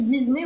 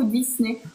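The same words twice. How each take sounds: First: Disney voiced as "Diz-ney"; Disney with a Z sound. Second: Disney unvoiced as "Diss-ney"; Disney with an S sound. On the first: Host unsure how the name is said, Disney with a Z. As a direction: say Disney with a buzzing Z in the middle. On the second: Host offers the other option, Disney with a hissed S. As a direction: say Disney with a sharp S in the middle. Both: Shown as a demonstration. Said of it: "Je sais pas si on dit Disney ou Disney".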